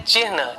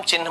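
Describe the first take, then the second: First: चिन्ह said as "chihn", h before n; careful चिन्ह with the h ahead of the n; correct spelling pronunciation. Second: चिन्ह said as "chinh", n before h; everyday चिन्ह, sounded like "chinn"; common mispronunciation. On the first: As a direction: sound the half h before the n in चिन्ह. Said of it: "ची आधा हा और ना है चिन्ह". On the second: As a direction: put the n ahead of the h in चिन्ह. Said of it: "लेकिन बोलते समय हम चिन्ह बोलते हैं". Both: Shown as a demonstration.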